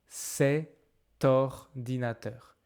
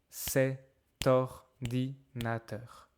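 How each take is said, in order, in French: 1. Un son « t » fait la liaison entre les deux mots. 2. Un son « t » fait la liaison entre les deux mots.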